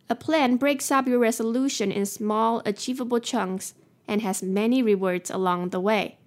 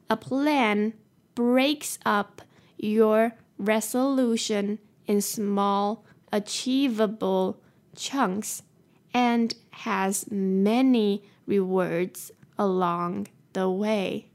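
First: It is said at a faster pace. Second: It is said at a slower pace.

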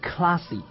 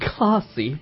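First: It is said in an American accent. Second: It is said in a British accent.

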